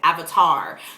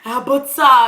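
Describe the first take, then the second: First: It has an English accent with a hard R. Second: It has a Korean accent without a hard R. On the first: "hard R like we would" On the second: "it was so cute when they were, oh"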